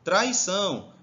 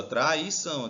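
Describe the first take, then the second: First: Said in the usual way. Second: Traição divided as tra, i, ção; Traição in distinct teaching beats; syllable by syllable. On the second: Shown as a demonstration. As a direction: separate each syllable of Traição. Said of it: "pra separar as sílabas".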